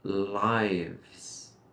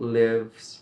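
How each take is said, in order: First: The vowel sounds like 'eye'. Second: The vowel sounds like the one in 'it'. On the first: The speaker calls it right. "remember that I sound" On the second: The speaker calls it wrong. "not lives"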